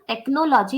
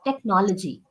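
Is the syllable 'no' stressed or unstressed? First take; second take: stressed; unstressed. First: The syllable 'no' carries the stress. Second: The syllable 'no' does not carry the stress. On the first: The speaker calls it wrong. "The pronunciation is not technology. You don't have to stress on no" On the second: The speaker calls it right. "It's technology"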